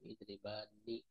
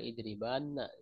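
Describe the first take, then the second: First: The final nun is followed by an 'i' vowel. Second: The final nun is followed by an 'a' vowel. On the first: The speaker calls it right. "dikasrohkan idribani" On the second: The speaker calls it wrong. "jadi tidak idribana"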